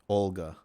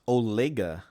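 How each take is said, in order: First: No vowel is sounded between the L and G. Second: A vowel is sounded between the L and G.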